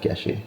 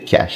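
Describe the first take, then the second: First: The word ends with an added vowel sound. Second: The word ends on the sh sound. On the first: The speaker calls it wrong. "they're gonna put the E on it when they pronounce it" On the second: The speaker calls it right. "try to learn to remember and say cash"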